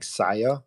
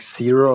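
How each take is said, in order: First: The surname sounds like Saya. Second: The surname sounds like the word zero. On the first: This is how the speaker says his own name. The speaker calls it right. "the last one is like Saya. I I do it like that" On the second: This is how most people say the name. The speaker calls it wrong. "most say like zero or something like that"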